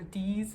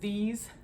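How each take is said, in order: First: The word begins with a hard d sound. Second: The word begins with a soft th sound. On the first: "or d's" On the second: "like the word these"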